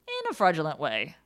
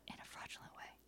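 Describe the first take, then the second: First: It is said in a normal voice. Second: It is said in a whisper.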